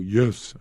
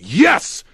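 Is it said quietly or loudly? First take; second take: quietly; loudly. First: It is said quietly and weakly. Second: It is yelled loudly and strongly.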